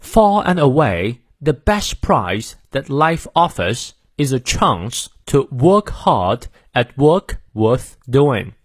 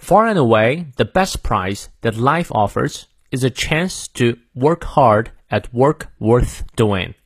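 First: Slow British accent, r's dropped; careful British model reading with a long ah in "chance"; British pronunciation. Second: Slow, measured American accent with clear r's; American pronunciation. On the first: Teacher shows the British version to learners, British accent. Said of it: "那如果英式发音呢". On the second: Teacher reads for learners to repeat, American accent. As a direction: model it slowly in American English, stressing key words. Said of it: "美式发音，我们来念两遍". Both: Shown as a demonstration.

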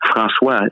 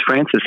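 First: "François" said the French way, frahn-SWAH; French pronunciation. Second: "Francis" said the English way, FRAN-sis; English pronunciation. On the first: Explaining the fighter's real name, French pronunciation of "François". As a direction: say "François" in French, ending on an open "wah". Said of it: "but it's François in French". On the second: Explaining a fighter's name as used here, English pronunciation of "Francis". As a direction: say "Francis" with an English ending, sounding the final s. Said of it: "his name is Francis here". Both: Shown as a demonstration.

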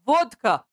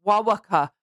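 First: "Vodka" with a clear v and d; corrective pronunciation. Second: "Wawaka" with w sounds replacing v and d; imitated mispronunciation. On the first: Retold or imitated. Laughing Russian correcting the Chinese guy, imitated corrective pronunciation. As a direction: pronounce "Vodka" firmly, correcting the listener. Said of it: "not wawaka". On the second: Chinese guy repeating vodka for the Russians, imitated mispronunciation. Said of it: "The Chinese guy responds back".

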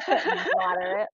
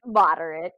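First: "Moderate" drawn out slowly through laughter, higher; laughing disbelief. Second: "Moderate" said flat, louder, dismissive; scoffing. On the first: Scoffing at the watch's rating, laughing slowly. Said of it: "I couldn't even laugh". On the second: Rejecting the watch's rating, louder scoff. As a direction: drop "Moderate" like an insult. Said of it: "Give me a break". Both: Retold or imitated.

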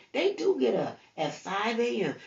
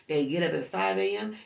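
First: "do" hit higher and louder; "They do get up" with a raised, punched "do"; stress on do. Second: Said in the usual way. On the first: Acted. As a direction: lean hard on "do". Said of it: "prayer agreeing with the commercial". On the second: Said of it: "repeats it plainly".

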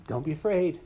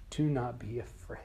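First: Higher, louder angelic proclamation; bright heralding call; joyful announcement. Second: Tender whispered reassurance; gentle whisper. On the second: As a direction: whisper it to calm him. Jesus comforting fallen John. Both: Acted.

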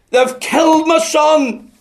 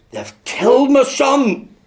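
First: Even louder and higher slow wail of grief; weeping cry, building. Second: Loud, slow wail, higher and breaking with grief; weeping cry. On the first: Father at the reverend's door, repeating it in a louder weeping wail. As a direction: let the grief swell and break on the repeat. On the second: Grieving father at the preacher's door, loud slow wailing cry. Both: Retold or imitated. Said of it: "And in his weeping".

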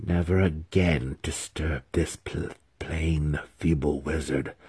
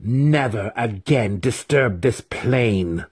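First: Low, soft menace; restrained demon's roar. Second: Slow, raised, commanding warning; demon's final warning. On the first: Demon warning the feeble wizard off, restrained roar. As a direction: threaten in a lowered, quiet demon voice. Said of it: "the Yochlol roared". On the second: Demon warning the wizard a final time, commanding. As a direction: deliver the warning slowly, pitched up. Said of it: "the Yochlol warned a final time". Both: A narrator's reading.

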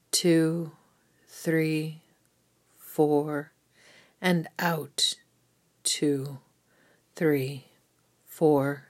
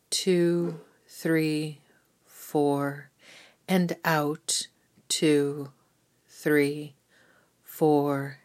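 Both takes have the same delivery.

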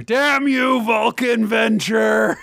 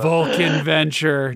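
First: High, drawn-out mock shout; mock cursing. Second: Said in the usual way. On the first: Cursing the manliest title ever, hammed-up mock shout. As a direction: curse it like a hammy villain.

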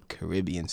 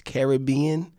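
First: Caribbean as "kuh-RIB-ee-un", stress on RIB; island pronunciation. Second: Caribbean as "kair-uh-BEE-un", higher and rising; American pronunciation. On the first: Guest tells host how islanders say it, Caribbean as "kuh-RIB-ee-un". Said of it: "they would tell you it's the". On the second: Guest shows America's way, Caribbean as "kair-uh-BEE-un". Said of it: "America's way of saying it". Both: Shown as a demonstration.

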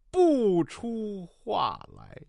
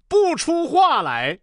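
First: Very slow, softer, sinking away; deflated reading. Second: High, drawn-out declamation; dramatic recitation. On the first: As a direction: let the grand reading die out word by word. Realising the page turn blunder. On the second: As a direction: recite it slowly with misplaced grand emotion. Climax of botched dramatic reading. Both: Acted.

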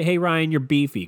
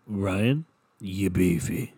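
First: Higher, louder, tossed-off "Hey, Ryan, you're beefy"; the rude way. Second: Lower, deliberate "you beefy" after a pause; the approved way. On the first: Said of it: "Don't just say". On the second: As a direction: say "Ryan", pause, then a low, admiring "you beefy". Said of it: "You gotta say it like". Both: Shown as a demonstration.

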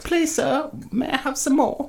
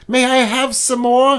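First: Much higher pleading orphan voice; Oliver Twist plea. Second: Higher, lightly voiced orphan asking for more; a hint of a begging child; Oliver Twist plea. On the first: Retold or imitated. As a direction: beg up high like a little orphan boy. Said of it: "No, it's". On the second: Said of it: "Oliver Twist came up and said".

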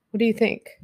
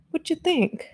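First: Said in the usual way. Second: Higher, softer, playful little voice; a playful baby-talk question; cutesy high voice. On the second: Pretend. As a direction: ask it again in a sweet, silly high voice. Repeats the question to chat.

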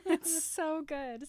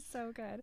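First: Said in the usual way. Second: Much softer repeat, trailing off; fading echo. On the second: Real, not acted. Host repeating praise of the fight, soft fading echo. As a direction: let the repeat melt away quietly.

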